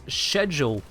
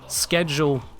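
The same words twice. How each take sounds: First: The word begins with an 'sh' sound. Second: The word begins with an 'sk' sound. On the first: This is the British form. "schedule in the U K" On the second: This is the American form. "schedule in the U S"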